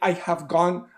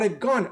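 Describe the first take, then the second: First: The word have is said in full. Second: The word have is shortened onto I. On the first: The speaker calls it wrong. "People do not usually say I have gone" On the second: The speaker calls it right. "but I've gone"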